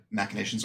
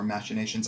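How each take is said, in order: First: "machinations" with a hard k, as MACK-uh-nations. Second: "machinations" with a sh, as MASH-uh-nations. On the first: Guest showing both ways to say it, "machinations" as mack-uh-nations. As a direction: say "machinations" with a k in the first part. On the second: Guest showing both ways to say it, "machinations" as mash-uh-nations. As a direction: say "machinations" with a soft sh in the first part. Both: Shown as a demonstration. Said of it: "I've heard it pronounced both ways".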